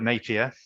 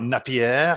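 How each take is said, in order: First: The name is said with a British pronunciation. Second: The name is said with a non-British pronunciation. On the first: The speaker calls it right. "be properly British and call it Napier" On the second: The speaker calls it wrong. "and not Napier"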